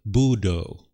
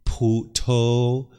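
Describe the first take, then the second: First: It is said with a Sri Lankan regional pronunciation. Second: It is said with a Thai regional pronunciation. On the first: "in Sri Lanka, they will say Budo" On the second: "That's the way we say it in Thailand"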